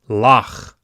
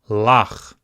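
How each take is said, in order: First: The word ends on the final consonant. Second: The same.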